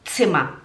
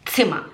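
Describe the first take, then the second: First: It begins with a sharp ts sound. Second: The same.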